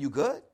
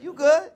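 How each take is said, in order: First: Low "You good?". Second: "You good?" much higher and louder, confronting. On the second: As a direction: throw "You good?" up loud and sharp. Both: Shown as a demonstration. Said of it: "Means something totally different".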